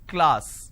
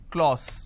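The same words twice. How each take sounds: First: The vowel is not an aw sound. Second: The vowel is an aw sound. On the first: The speaker calls it right. "it's class" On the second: The speaker calls it wrong. "Lot of people pronounce this as class. ... they make it aw"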